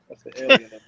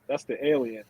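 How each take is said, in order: First: Higher, louder joking punchline; excited punchline. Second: Said in the usual way. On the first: Shown as a demonstration. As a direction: sell the joke with a big lift.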